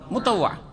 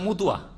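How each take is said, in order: First: It is said with the fuller Arabic-style vowels. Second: It is said with simplified Bengali-style vowels. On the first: The speaker calls it right. "শব্দটা হচ্ছে কি মোতাওয়া" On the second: The speaker calls it wrong. "শুদ্ধভাবে উচ্চারণ করতে পারে না বাঙালিরা, কি করে দেয় মুতুয়া"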